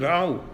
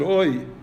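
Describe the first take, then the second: First: The vowel is said as au. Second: The vowel is said as oi. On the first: "The Germans pronounce it au" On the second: "the Polish pronounce it oi"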